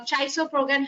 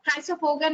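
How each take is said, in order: First: Chrysopogon as CHAI-so-pro-gan, starting with CH; CH pronunciation. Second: Chrysopogon as KRY-so-po-gan, hard K at the start; hard K pronunciation. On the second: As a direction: open "chrysopogon" with a K sound. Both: Shown as a demonstration. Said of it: "however you pronounce it".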